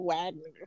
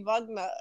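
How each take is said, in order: First: The name begins with a W sound. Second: The name begins with a V sound. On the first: The name is said the English way. The speaker calls it wrong. "instead of Wagner" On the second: The name is said the German way. The speaker calls it right. "it just seemed like it should be Wagner"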